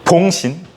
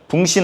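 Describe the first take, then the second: First: The first vowel is an 'o' sound. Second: The first vowel is an 'u' sound. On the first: The speaker calls it right. "발음 잘해야 돼요" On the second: The speaker calls it wrong. "붕신 아니에요"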